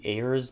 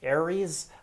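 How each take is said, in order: First: The name is said as one syllable, like 'airs'. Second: The name is said as three syllables, like 'Aries'. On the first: The speaker calls it wrong. "I pronounce it how it is spelled" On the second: The speaker calls it right. "to the user who tells me it is pronounced Aries"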